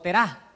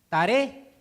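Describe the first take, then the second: First: The name is pronounced the Hebrew way. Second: The name is pronounced the Spanish way. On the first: "o si en hebreo" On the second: "si en español"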